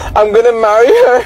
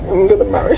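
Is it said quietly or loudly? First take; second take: loudly; quietly. First: It is said loudly. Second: It is said quietly and hesitantly.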